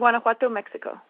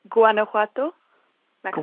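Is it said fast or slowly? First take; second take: fast; slowly. First: It is said fast. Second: It is said slowly.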